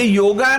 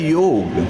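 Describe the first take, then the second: First: The word ends with an added final 'a' vowel. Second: The word ends on the consonant, no final vowel. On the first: The speaker calls it wrong. "तो ऐसे योगा नहीं है" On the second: The speaker calls it right. "ये वास्तव में शब्द है योग"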